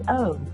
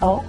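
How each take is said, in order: First: The letter is said as its name. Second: The letter is said as its sound. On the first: "the name is O" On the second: "The sound is O"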